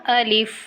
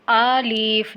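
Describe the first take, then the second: First: الف with a short first vowel; الف begun short, not as "aalif"; unlengthened alif. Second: آلیف with the first vowel stretched long; آلیف mistakenly drawn out at the start; wrongly lengthened alif. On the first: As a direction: say الف without stretching its opening "a". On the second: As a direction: overdo the opening "aa" of آلیف. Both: Shown as a demonstration. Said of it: "لمبا نہیں کرنا".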